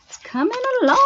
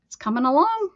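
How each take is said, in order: First: High sing-song repeat. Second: Said in the usual way. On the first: Real, not acted. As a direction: lilt it up high like a tune.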